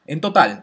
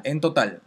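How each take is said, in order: First: "En total" punched loud, falling on "total"; stress on total. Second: Said in the usual way. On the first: Shown as a demonstration. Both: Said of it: "no por cada filtro, sino en total".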